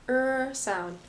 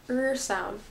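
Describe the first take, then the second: The two takes are said the same way.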